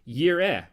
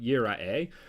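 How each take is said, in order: First: The word has no extra middle vowel sound. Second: The word has an extra middle vowel sound.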